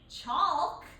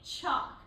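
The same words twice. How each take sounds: First: The L sound is pronounced in the word. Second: The L sound is silent in the word. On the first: The speaker calls it wrong. "We don't say chalk" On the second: The speaker calls it right. "we say chalk. So that L is a silent letter"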